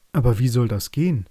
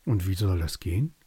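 First: Loud, doubting raven; the raven doubts the plan, louder; raven asking. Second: Said in the usual way. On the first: A narrator's reading. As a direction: challenge it like a worried raven. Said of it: "fragte der Rabe".

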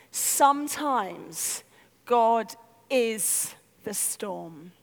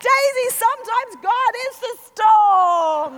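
First: Very slow, lowered, weighty pauses; dawning realisation. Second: Loud, high yell through a storm; shouted lesson. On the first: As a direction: let each word land in revelation. Sudden enlightenment, slow realisation. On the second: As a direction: bellow it to a child in the wind. Yelling lesson at child in gale. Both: Retold or imitated.

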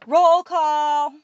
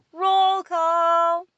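First: Loud, high, drawn-out call; shouted. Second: Higher, loud echoing answer; shouted group response. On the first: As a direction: shout it to the whole hall. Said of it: "stood on the table and shouted". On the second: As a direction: shout back as the whole hall. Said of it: "The entire hall responded". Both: A narrator's reading.

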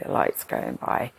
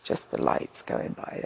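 First: The lights going by, dropped much lower and rising at the end; much lower, dreamy repeat of the lights going by; dreamy low echo. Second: Hushed whisper, lost in the moment; whispering as the ceiling lights pass. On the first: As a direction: sink the voice low and let it drift upward. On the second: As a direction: breathe it out like a dreamy aside. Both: Retold or imitated. Lying on gurney watching lights pass.

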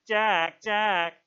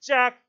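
First: Loud, high mocking echo; bitter mimicry. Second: High, very loud name call; sharp shout. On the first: Jack mocks Ralph's call, in bitter mimicry. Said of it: "sounded in bitter mimicry". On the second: Ralph calls Jack to order, shouting high. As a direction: shout the name to stop him. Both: A narrator's reading.

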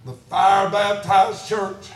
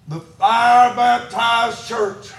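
First: Said in the usual way. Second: Slow, emphatic preacher's proclamation; said loud. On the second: Real, not acted. Preacher repeating a declaration to the church, said loud. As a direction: stretch it out and proclaim it. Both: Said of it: "I'm gonna say this and say it loud".

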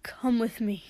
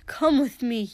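First: Said in the usual way. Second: Urgent pleading. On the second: Acted. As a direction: repeat it louder, begging. Pleading with his brother.

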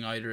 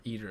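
First: "either" said EYE-ther; "either" opening like the word eye; EYE-ther pronunciation. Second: "either" said EE-ther; "either" opening like the ee in see; EE-ther pronunciation. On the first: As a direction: say "either" with a long I at the start. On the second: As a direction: say "either" with a long E at the start. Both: Shown as a demonstration. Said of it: "Is it either or either".

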